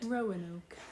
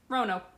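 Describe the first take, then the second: First: The word is said slowly and carefully. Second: The word is said very quickly.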